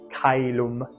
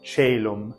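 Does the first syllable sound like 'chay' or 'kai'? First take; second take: kai; chay. First: The first syllable has a k sound and an ai vowel. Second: The first syllable has a ch sound and an ay vowel. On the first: This is the classical pronunciation. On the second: This is the church pronunciation. "that soft C sound, and then this becomes an, an A sound"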